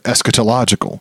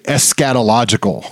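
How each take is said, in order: First: No syllable sounds like the word 'scat'. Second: One syllable sounds like the word 'scat'. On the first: The speaker calls it right. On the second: The speaker calls it wrong.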